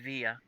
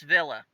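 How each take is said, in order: First: The word is said with its original-language pronunciation. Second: The word is said with an American pronunciation. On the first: "said in the language that's meant, it's probably Via" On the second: "said American, it's Villa"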